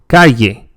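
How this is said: The double L sounds like a y. Most speakers say it this way. "pronounced like the English yeah"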